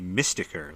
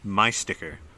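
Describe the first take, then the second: First: It starts with 'mystic' and blends into 'sticker'. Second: It is split as 'my' plus 'sticker'. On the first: The speaker calls it right. "It's supposed to be mysticker, like mystic sticker" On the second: The speaker calls it wrong. "this is me mispronouncing uh my sticker"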